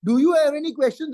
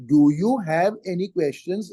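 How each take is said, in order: First: Quick, higher-pitched question tossed out in passing; brisk, perfunctory check; rushed token question. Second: Measured, deliberate question; genuine question. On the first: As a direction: ask it hurriedly, not waiting for an answer. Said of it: "Then they go on speaking". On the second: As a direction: ask it word by word as a real question. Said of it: "is a question". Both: Shown as a demonstration.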